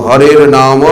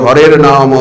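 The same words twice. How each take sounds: Both takes have the same delivery.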